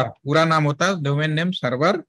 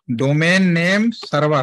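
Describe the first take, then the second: First: Said in the usual way. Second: domain name server said slowly, word by word; slow spelled-out term. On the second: Shown as a demonstration. (धीरे-धीरे, हर शब्द अलग बोलें)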